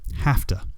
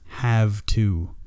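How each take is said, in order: First: The two words are linked into one reduced form. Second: The two words are said fully and separately. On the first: The speaker calls it right. "we practiced that sound linking" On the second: The speaker calls it wrong. "It is not said as have to. It's very difficult to say"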